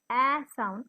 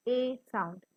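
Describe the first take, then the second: First: "a" as short A, like in apple; short vowel. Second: "a" as the letter name, ay; long vowel. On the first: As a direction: say "a" as the vowel of cat. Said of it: "a is giving a sound instead of". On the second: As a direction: say "a" long, like in ape. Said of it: "instead of a sound". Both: Shown as a demonstration.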